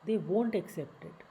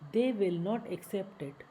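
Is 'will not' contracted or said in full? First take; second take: contracted; full. First: 'Will not' is shortened into one word. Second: 'Will not' is said as two full words.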